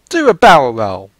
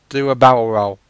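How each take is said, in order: First: It is said in a put-on accent. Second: It is said in a natural voice.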